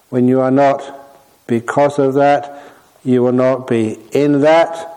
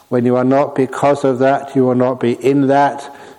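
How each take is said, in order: First: The phrases are separated by noticeable pauses. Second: The phrases run together without any pauses.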